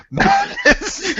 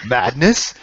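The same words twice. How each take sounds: First: Much higher, squealed "Madness?" as a joke; mock Spartan yell. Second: Said in the usual way. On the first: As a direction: screech the line in parody. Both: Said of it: "Spartan madness quote".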